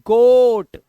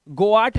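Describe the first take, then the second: First: गोट with one long o, much louder; loud one-vowel गोट; correct goat. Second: गोआट split into go-aat; wrong two-vowel गोआट; misreading of goat. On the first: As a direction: belt out गोट as a single syllable. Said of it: "बकरी के लिए क्या बोलते हैं?". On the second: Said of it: "गोआट नहीं बोलते". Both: Shown as a demonstration.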